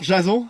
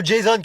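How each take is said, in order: First: "Jason" as French "ja-zon", nasal ending; French pronunciation. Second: "Jason" said "djay-zonn", final n sounded; American pronunciation. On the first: Acted. Parent greets son's friend, "Jason" mispronounced as French ja-zon. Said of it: "ça se prononce plutôt Jason". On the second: Shown as a demonstration. Friend corrects parent, "Jason" American-style as djay-zonn. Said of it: "comme à l'américaine".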